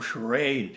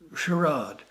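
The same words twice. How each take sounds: First: The word is said in an American way. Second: The word is said in a British way.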